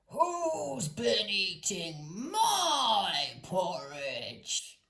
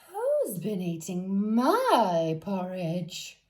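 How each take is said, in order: First: It is said in a great gruff voice. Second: It is said in a middle-sized voice.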